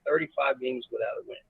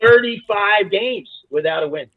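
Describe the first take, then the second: First: Much softer, letting it sink in; quiet repeat. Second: "Thirty-five games without a win" drawn out slow and higher; emphatic. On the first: Coach repeating the winless streak to the host, quietly. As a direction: drop the volume right down. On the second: Coach marvelling at the winless streak, emphatic. Stresses the winless run, then repeats. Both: Real, not acted.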